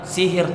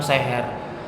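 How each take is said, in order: First: The word is said with i vowels. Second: The word is said with e vowels. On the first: The speaker calls it right. "seharusnya kita mengucapkannya itu katanya sihir" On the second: The speaker calls it wrong. "bukan seher"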